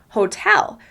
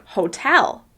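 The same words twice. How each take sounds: First: The stress is on the second syllable. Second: The stress is on the second syllable.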